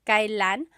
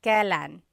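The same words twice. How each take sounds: First: "kailan" said in three syllables, ka-i-lan; careful full form. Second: "kailan" squeezed to two syllables, like "kelan"; casual contracted form. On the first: Teacher showing students the textbook form, careful ka-i-lan. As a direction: spell out "kailan" slowly as ka-i-lan, each vowel clear. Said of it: "it's pronounced kailan". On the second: Teacher showing students the everyday spoken form, relaxed kelan. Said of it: "you will often hear it pronounced kailan". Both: Shown as a demonstration.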